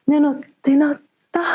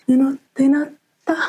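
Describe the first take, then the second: Both takes have the same delivery.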